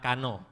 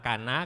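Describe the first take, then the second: First: The word ends with an 'o' vowel. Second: The word ends with an 'a' vowel. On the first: This is the O-dialect form. "kalau dialek O dia bilang kano" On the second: This is the A-dialect form. "dialek A dia bilang kana"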